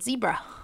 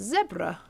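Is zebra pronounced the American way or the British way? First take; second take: American; British. First: The word is said with an American pronunciation. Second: The word is said with a British pronunciation. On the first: This is how Americans say it. "You Americans call it zebra" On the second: This is how the speaker thinks it should be said. "It's zebra. That's how I see it"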